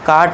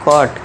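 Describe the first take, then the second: First: The vowel is an open 'ah' sound. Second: The vowel is a rounded 'aw' sound. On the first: The speaker calls it wrong. "काट नहीं कॉट" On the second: The speaker calls it right. "काट नहीं कॉट, क्योंकि ऊपर चंद बिंदु है"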